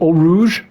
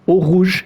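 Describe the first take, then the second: First: It is said with an English accent. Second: It is said with a French accent.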